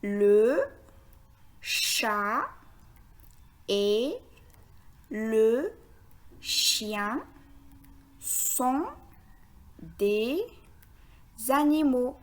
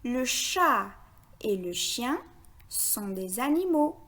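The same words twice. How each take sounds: First: One word at a time, long pauses between; word-by-word reading. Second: Sentence read in short connected groups; repeated in phrases. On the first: Teacher reading the sentence for beginners, word by word. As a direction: spell out the sentence word by careful word. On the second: Teacher repeats the sentence for beginners, in short phrases. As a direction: repeat it phrase by phrase, brief pauses between. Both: Shown as a demonstration. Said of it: "Je répète".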